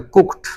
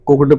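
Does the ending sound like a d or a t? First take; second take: t; d. First: The word ends with a t sound. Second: The word ends with a d sound. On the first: The speaker calls it right. "टा, तो फिर इसको पढ़ा जाएगा कुक्ड" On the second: The speaker calls it wrong. "आपने हमेशा इसको कुक्ड पढ़ा ... ये आपने अभी तक सब कुछ गलत ही पढ़ा"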